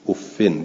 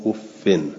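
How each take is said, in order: First: The word ends in an -in sound. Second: The same.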